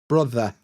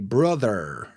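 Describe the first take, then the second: First: No R sound is pronounced at the end. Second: An R sound is pronounced at the end. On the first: "We don't pronounce the R" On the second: "we don't say brother"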